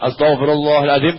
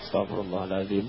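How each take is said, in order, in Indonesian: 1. Diucapkan keras dan jelas. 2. Diucapkan pelan dan bergumam. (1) "Itu kalau imam ngajak zikir jahar" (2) "Mau diajak banter kok pelan?"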